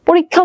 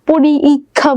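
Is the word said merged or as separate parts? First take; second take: merged; separate. First: The two parts merge into one smooth word. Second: The two parts are said separately, unmerged. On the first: The speaker calls it right. "যতটা কষ্ট কম হয়" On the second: The speaker calls it wrong. "দুটা বলতে সময় বেশি লাগে"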